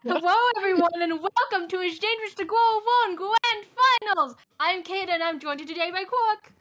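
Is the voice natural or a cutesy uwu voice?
uwu voice. It is said in a cutesy uwu voice.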